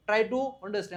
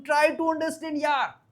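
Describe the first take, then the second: First: Said in the usual way. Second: Higher, drawn-out exasperated appeal; exasperated plea. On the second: Acted. Teacher voices pleading with a friend to understand, exasperated. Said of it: "આપણે બોલું".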